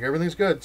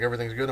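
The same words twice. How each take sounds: First: Higher, louder statement, falling on GOOD; kid's emphatic all-clear; confirming reply. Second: Rising question ending on GOOD; father checking it's all fine. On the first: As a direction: confirm it firmly, dropping off on GOOD. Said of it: "I'm like". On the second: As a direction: ask it as a check, lifting GOOD. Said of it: "He's like". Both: Retold or imitated.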